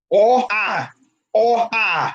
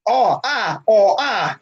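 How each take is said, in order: First: Oh as rounded New York aw, ah as open Boston ah; New York aw versus Boston ah. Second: Oh said as New York aw, ah said as Boston open ah; two vowels, aw then ah; New York aw versus Boston ah. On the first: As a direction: repeat the aw and ah contrast. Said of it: "That's how you do it". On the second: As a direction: contrast the aw and the ah. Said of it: "That's how you determine it". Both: Shown as a demonstration.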